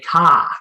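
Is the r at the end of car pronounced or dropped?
dropped. It is said with the r dropped, Boston accent.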